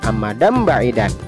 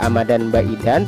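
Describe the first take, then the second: First: The nasal before the b sounds like m. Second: The nasal before the b sounds like n. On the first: The speaker calls it right. "tetapi harus dibaca amadam ba'idan" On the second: The speaker calls it wrong. "tidak dibaca amadan ba'idan"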